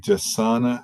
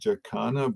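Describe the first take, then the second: First: The middle consonant is a soft s sound. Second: The middle consonant is a hard k sound. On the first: The speaker calls it right. "it's actually" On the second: The speaker calls it wrong. "they might pronounce it"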